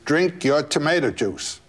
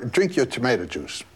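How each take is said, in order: First: It is said in a louder voice. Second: It is said at a normal, quieter volume.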